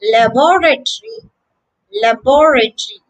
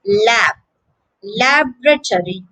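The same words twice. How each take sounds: First: Luh-BOR-uh-tree, stressed on the second syllable; British "laboratory", luh-BOR-uh-tree; British pronunciation. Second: LAB alone, then LAB-ruh-tory; American "laboratory" with the weight on LAB; first-syllable stress. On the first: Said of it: "The British version sounds quite different". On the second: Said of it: "stress on the first syllable". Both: Shown as a demonstration.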